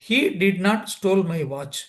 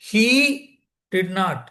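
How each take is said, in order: First: No single word is given special stress. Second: The word he carries the main stress. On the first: He did not take my watch. "சாதாரணமாக சொன்னா" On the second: Someone other than him did it. "அவன் இல்லை, ஆண் இல்லை"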